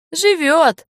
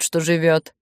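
First: «Живёт» pitched high, then falling; emphatic confirmation. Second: Said in the usual way. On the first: A narrator's reading. Senya confirms the mill ghost, «Живёт» high and emphatic. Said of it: "подтвердил Сеня".

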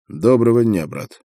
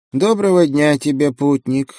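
First: Said in the usual way. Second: Lightly creaky little monk; a thin creaky greeting. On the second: A narrator's reading. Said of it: "скрипучим голосом поприветствовал он меня".

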